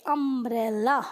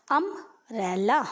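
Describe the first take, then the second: First: Said in the usual way. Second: अम्ब्रेला spelled out slowly as "am-bre-la", the first sound a short "a"; slow model reading. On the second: Shown as a demonstration. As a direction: drag अम्ब्रेला out syllable by syllable for the class. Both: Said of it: "तो इसे हम पढ़ते हैं".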